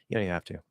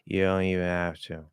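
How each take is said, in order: First: The reduced phrase is said at a fast pace. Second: The reduced phrase is said at a slow pace. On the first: The speaker calls it right. "exactly the same, but faster" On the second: The speaker calls it wrong. "if I try to do it at that speed"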